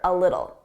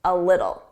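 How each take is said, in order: First: The T sounds are said as soft D's. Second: The same.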